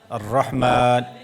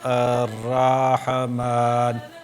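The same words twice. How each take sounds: First: The opening 'ar' is kept short. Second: The opening 'ar' is stretched out long. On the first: The speaker calls it right. "you don't stretch those letters more than they should" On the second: The speaker calls it wrong. "Rather than ar-Rahman"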